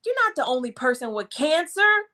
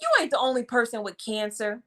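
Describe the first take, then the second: First: Said in the usual way. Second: Quick, brushing-off "You ain't" delivery; careless, fast dismissive tone. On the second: Shown as a demonstration. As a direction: toss it off like you don't care. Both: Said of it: "What if I would have said it like that".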